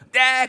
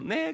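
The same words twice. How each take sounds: First: It is said in a loud voice. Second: It is said in a sweet, pretty voice.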